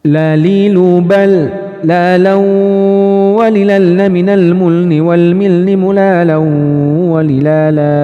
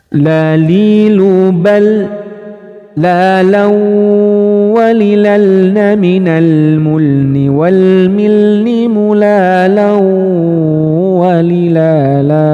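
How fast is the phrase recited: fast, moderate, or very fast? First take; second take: very fast; moderate. First: It is recited at a very fast speed. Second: It is recited at a moderate speed. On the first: "cepetin lagi teman-teman" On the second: "Ini menggunakan kecepatan yang standar"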